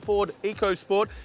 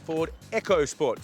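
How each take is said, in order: First: The first part does not sound like 'echo'. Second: The first part sounds like the word 'echo'. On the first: The speaker calls it wrong. "this here is not called the Ford EcoSport" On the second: The speaker calls it right. "It's actually got a silent H in it. ... make sure you get the Echo right"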